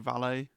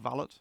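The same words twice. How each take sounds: First: It is said in a French way. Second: It is said in an English way.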